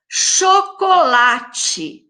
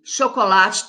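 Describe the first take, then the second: First: "Chocolate" very slow, higher, syllable by syllable; syllable-stretched. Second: Said in the usual way. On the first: Shown as a demonstration. Teacher counting syllables for pupils, "Chocolate" stretched out slowly. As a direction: draw out every syllable of "Chocolate". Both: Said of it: "Chocolate também tem quatro sílabas".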